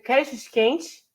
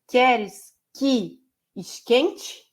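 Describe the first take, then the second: First: It is said fast and run together. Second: It is said slowly with clear pauses.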